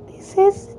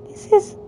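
The two takes are said the same way.

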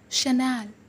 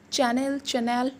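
First: The word begins with an 'sh' sound. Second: The word begins with a 'ch' sound. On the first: The speaker calls it right. "No, guys, it's Chanel" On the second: The speaker calls it wrong. "call it usually Chanel"

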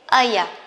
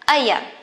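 First: The two words are run together and reduced. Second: The two words are run together and reduced.

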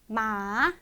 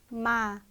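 First: The pitch drops sharply and then rises. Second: The pitch falls steadily throughout. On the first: "뚝 떨어졌다가 올라오는 음으로" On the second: "쭉 떨어지는 음이죠"

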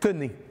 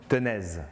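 First: The word ends on a vowel, no z sound. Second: The word ends with an audible z sound.

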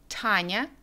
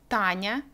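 First: The t is breathy, with the tongue behind the teeth. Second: The t is soft, with the tongue on the teeth. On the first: "произнести русские имена Таня и Даша по-английски" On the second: "Когда мы произносим русские звуки т и д"

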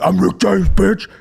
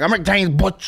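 First: It is said forcefully and emphatically. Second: It is said sheepishly and understated.

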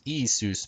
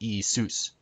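First: The stress is on the first syllable. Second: The stress is on the last syllable. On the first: The speaker calls it wrong. "not Jesus" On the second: The speaker calls it right. "with the accent on Zeus"

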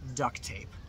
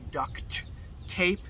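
First: The T sound is heard only once. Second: Both T sounds are pronounced clearly. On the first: "You usually only hear the T sound once" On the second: "We don't usually pronounce it that clearly"

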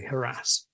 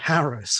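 First: The stress falls on the second syllable. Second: The stress falls on the first syllable. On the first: This is the newer form that may irritate traditional speakers. "you may irritate traditional RP speakers if you say" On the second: This is the older form that the dictionaries list first. "Both of them firstly recommend harass, which I think has been out of date for a long time"

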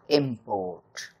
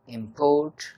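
First: The stress falls on the first syllable. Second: The stress falls on the second syllable. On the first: It is a noun. "has the accent on the first syllable" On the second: It is a verb. "the verb import has the accent on the second syllable"

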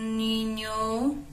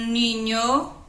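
First: It is said softly, a little louder. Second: It is said at normal talking volume.

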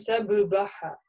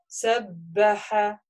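First: A short vowel splits the two b sounds apart. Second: The b is held doubled with no vowel inside. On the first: The speaker calls it wrong. "мы не говорим сабыбаха" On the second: The speaker calls it right. "за счет тяжести вот этой мы понимаем, что буква удвоена"

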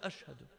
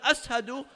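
First: The middle consonant is an sh sound. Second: The middle consonant is a plain s sound. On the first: The sound is received as intended. "Allah hears it as" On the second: The sound could not be produced correctly. "When Bilal says"

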